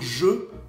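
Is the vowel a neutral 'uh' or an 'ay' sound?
neutral uh. The vowel is a neutral 'uh' sound. "au lieu de dire je"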